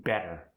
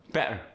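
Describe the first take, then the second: First: Said in the usual way. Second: South African "better" with a glottal stop; South African accent. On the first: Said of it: "For instance". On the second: Shown as a demonstration. Teaching the middle T, South African "better". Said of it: "you get that glottal stop".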